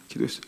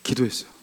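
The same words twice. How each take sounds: First: Much softer echo, almost breathed; whispered echo of the answer; near whisper. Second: Soft, dropped reveal of a prayer; hushed reveal. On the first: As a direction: repeat it barely audible. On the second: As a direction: let the answer fall softly. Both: Shown as a demonstration. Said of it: "제가 어떻게 했는지 아세요?".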